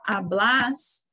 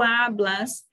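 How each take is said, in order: First: The stress is on the last syllable. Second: The stress is on the first syllable. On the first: The verb goes with the pronoun vos. "já no vos tem um acento, a gente já fala hablas" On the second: The verb goes with the pronoun tú. "se fosse tu, tu hablas"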